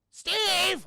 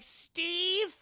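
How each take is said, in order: First: Loud, high holler; acted shout for someone missing; shouted call. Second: High, drawn-out searching call; acted tentative call for someone missing; questioning call. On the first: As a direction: holler the name, drawn out and high. Calls louder for missing Steve. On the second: Maitre d' searching for Steve.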